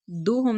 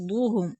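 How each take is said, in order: First: दुहुम with a plain light d; wrong thin d. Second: दुहुम with a heavy, full-mouthed दु; full heavy daad. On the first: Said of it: "नहीं". (दुहुम, पतला दाल) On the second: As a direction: darken the दु of दुहुम. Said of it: "दौत पुर पढ़ेंगे". (दुहुम, पुर दौत) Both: Shown as a demonstration.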